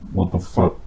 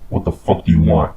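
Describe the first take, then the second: First: It is said as a frightened whimper. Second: It is said in an angry, commanding tone.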